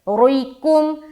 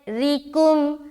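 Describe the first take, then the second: First: The r sound is heavy and full. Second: The r sound is thin and light. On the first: The speaker calls it wrong. "तो गलत हो जाएगा" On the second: The speaker calls it right. "रा को बारीक रख रहे क्योंकि जेर है"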